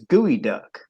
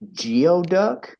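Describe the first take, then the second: First: The first part sounds like 'gooey'. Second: The first part sounds like 'gee-oh'. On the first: The speaker calls it right. "the correct pronunciation is gooey duck" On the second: The speaker calls it wrong. "the first time I saw this sign, I was like"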